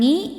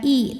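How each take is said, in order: First: The syllable starts with a nasal ng sound. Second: The syllable starts with a plain glottal catch. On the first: "bukan ngi" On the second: "bukan i"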